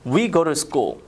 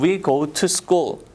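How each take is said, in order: First: The t in 'to' is a soft flap. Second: The t in 'to' is a clear t. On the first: "to를 한번 루라고 발음을 해서 자연스럽게" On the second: "처음에는 we go to school 이라고 연습을 하시겠지만"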